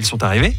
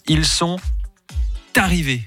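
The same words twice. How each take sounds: First: The words flow together without a pause. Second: A pause comes before the linked word 'arrivés'. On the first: The speaker calls it right. "comment la vraie phrase" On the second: The speaker calls it wrong. "lorsque la liaison est faite avec une pause entre les deux"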